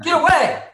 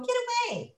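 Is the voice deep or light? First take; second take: deep; light. First: It is said in a deep, menacing voice. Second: It is said in a light, unthreatening voice.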